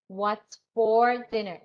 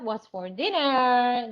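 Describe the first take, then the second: First: The voice falls at the end. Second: The voice rises at the end. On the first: The speaker calls it right. "falling intonation" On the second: The speaker calls it wrong. "It's not ... No, that's wrong"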